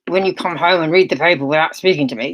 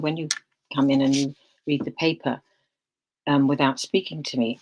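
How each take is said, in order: First: It is said in a sharp, accusing tone. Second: It is said in a calm, neutral tone.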